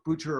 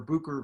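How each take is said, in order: First: The middle consonant is a 'ch' sound. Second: The middle consonant is a 'k' sound. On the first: The speaker calls it wrong. "I don't know if I'm pronouncing it correctly" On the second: The speaker calls it right. "Booker is the, the correct uh, pronunciation"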